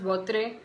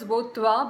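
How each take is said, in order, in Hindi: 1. यह नाम अंग्रेज़ी उच्चारण में बोला जाता है। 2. यह नाम फ़्रेंच उच्चारण में बोला जाता है। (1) "I have always pronounced this as Votre" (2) "pronounced as Votwa"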